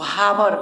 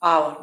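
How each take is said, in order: First: The word begins with an h sound. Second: The word begins with a vowel sound. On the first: The speaker calls it wrong. "बहुत विद्यार्थी जो नहीं जानता है वो हावर पढ़ते, गलत है" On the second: The speaker calls it right. "आव आवर मतलब घंटा"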